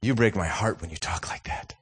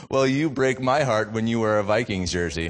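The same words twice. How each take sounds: First: Hushed, whispery wounded dad; mock-tragic half-whisper to a child; acted heartbreak. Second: Child's unfazed retort, retold; imitating a kid standing his ground; imitated unflinching comeback. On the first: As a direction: softly whisper it as if deeply hurt. Acted hurt reply to son. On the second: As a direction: fire it back without flinching, fully voiced. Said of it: "looks at me without flinching".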